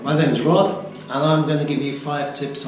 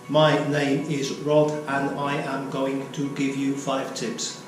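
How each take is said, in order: First: It sounds natural, with the contraction I'm. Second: It sounds robotic, with the full form I am. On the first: The speaker calls it right. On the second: The speaker calls it wrong.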